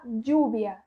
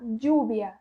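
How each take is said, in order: First: It is said in a strong Spain Spanish accent. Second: The same.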